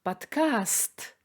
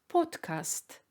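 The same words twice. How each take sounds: First: The stress is on the second syllable. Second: The stress is on the first syllable. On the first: This is the Russian pronunciation. "в русском языке ударение падает на «а»" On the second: This is the English or German pronunciation. "ударение, то есть акцент, падает на «о»"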